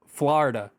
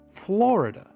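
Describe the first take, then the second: First: The word is clipped to two syllables, Flarda. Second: Every syllable of the word is fully pronounced. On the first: The speaker calls it wrong. "like F L A R D A" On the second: The speaker calls it right. "You pronounce the letters"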